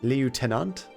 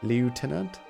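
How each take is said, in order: No difference in how they are said.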